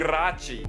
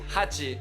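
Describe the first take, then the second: First: The word starts with an r sound. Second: The word starts with an h sound. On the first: The speaker calls it wrong. "mas ele diz richi, rachi" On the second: The speaker calls it right. "o número sete e oito é shichi, hachi"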